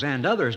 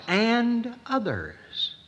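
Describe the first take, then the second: First: Said in the usual way. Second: "and others" drawn out slowly, pitched higher; slow solemn repeat. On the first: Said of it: "I guess those". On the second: Retold or imitated. Preacher repeating the Hebrews phrase to congregation, slow and lingering. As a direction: stretch "and others" long and high with a falling end. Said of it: "He says it twice".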